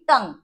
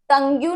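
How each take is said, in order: First: The word ends on the ng sound. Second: The word ends with an added yoo sound. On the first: The speaker calls it right. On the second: The speaker calls it wrong. "टंग्यू नहीं बोलते इसे"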